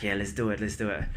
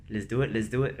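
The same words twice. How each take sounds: First: Said in the usual way. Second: Lightly imitated Singaporean accent; a touch of Singaporean English, mimicking a running buddy. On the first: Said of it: "But he says it in, like, a Singaporean accent". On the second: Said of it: "like, a Singaporean accent. He's kinda like".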